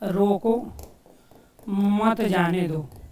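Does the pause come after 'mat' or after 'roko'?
after roko. The pause comes after the word 'roko'. "अलग अलग स्थान पे हमने विराम चिन्ह लगाया"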